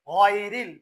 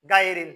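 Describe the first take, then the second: First: গায়রিল as "ghoy-ril", throaty GH, rounded, loud; correct Ghain. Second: গায়রিল as "gai-ril", hard G and open A, loud; mistaken G. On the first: Teacher gives the correct form, throaty rounded গায়রিল. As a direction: draw out গায়রিল with a heavy throat GH. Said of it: "সেজন্য বলতে হবে". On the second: Teacher mimics the mistake, loud hard-G গায়রিল. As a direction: punch গায়রিল with a plain hard G. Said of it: "এটা ভুল করে কিরকম?". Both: Shown as a demonstration.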